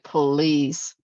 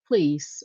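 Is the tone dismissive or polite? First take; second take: dismissive; polite. First: It is said in a dismissive, scornful way. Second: It is said as a polite request.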